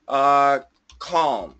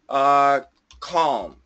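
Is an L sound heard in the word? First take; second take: yes; yes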